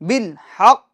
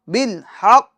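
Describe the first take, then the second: No difference in how they are said.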